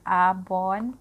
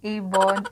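First: "Avon" with an open AH at the start, then bon; pronunciation attempt. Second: "Avon" with an opening AY sound, then bon; pronunciation attempt. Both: Shown as a demonstration. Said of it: "kung anong pronunciation nito".

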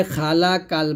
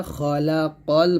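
First: "খালাকাল" with open a vowels and plain k; light, unrounded syllables in "খালাকাল"; wrong light form. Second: Heavy qaf in "খলাকাল"; correct heavy form. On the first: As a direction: say "খালাকাল" thinly, as "khalakal". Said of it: "খালাকাল বলবেন না". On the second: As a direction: round the vowels of "খলাকাল" after heavy consonants. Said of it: "খলাকাল বলতে হবে". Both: Shown as a demonstration.

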